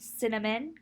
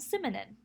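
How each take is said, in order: First: The sounds come in their usual order. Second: The n and m sounds trade places.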